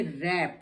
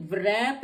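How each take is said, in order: First: रैप starting straight on R, lower and drawn out; no W before the R in रैप; silent W. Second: रैप with a V-like W before the R, "vrap"; wrongly sounded W. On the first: Teacher gives the correct word, रैप with silent W. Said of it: "ये रैप है". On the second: Teacher shows the wrong reading, रैप as "vrap". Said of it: "तो ये रैप नहीं है". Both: Shown as a demonstration.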